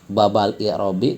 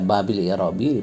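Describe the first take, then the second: First: The first word ends in the vowel a. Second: The first word ends in the vowel i. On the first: "kenapa dibaca ba?" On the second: "dibaca bi?"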